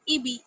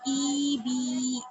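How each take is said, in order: First: The vowels are short and even. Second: The vowels are stretched out long. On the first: The speaker calls it right. "बिना खींचे बिना झटके के पढ़ेंगे" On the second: The speaker calls it wrong. "किसी को भी खींचना नहीं है, जैसे ई बी नहीं, गलत हो जाएगा"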